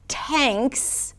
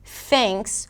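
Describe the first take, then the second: First: It begins with a stopped T sound. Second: It begins with a flowing TH sound. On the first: The speaker calls it wrong. "with a T" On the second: The speaker calls it right. "with a T H"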